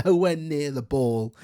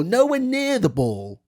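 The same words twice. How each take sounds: First: Said in the usual way. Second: "Nowhere" hit high and hard, the rest falls away; stress on nowhere. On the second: Real, not acted. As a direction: punch "Nowhere" as an outraged protest. Angry repeat about the foul.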